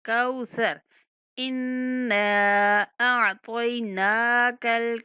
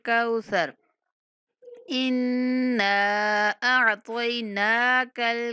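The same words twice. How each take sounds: The two takes are said the same way.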